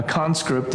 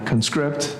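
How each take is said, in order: First: Conscript as the noun, CON-script; stress on first syllable. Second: Conscript as the verb, con-SCRIPT; stress on second syllable. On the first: Teacher showing the noun form, conscript stressed CON-script. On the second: Teacher showing the verb form, conscript stressed con-SCRIPT. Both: Shown as a demonstration. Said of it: "So which is which?".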